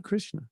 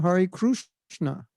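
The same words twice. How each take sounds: First: Said in the usual way. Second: "Krishna" said as "Krooshna"; regional Indian pronunciation. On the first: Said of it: "not Krishna". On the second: Shown as a demonstration. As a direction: stretch "Krishna" with an oo vowel. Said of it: "In some places, they chant".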